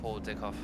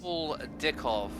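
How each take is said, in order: First: The name is said quickly, run together. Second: The name is said at a normal pace.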